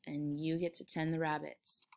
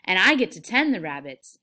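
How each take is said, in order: First: Softer, resigned echo; low-key, quiet confirmation; subdued agreement. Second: Loud, eager boast; gleeful, much louder exclamation; delighted. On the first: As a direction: repeat it quietly to humor him. George echoes Lenny quietly. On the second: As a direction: claim it proudly and excitedly. Lenny's delight, George answers subdued. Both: Acted.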